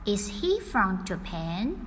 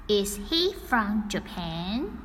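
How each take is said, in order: Both takes have the same delivery.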